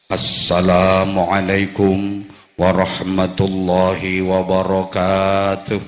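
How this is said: It is said in a big, booming preacher's voice.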